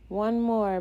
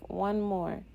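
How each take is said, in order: First: Loud upbeat cheer for the team; rallying call. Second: Said in the usual way. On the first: Acted. Catcher rallies the pitcher for the last out, loud cheer.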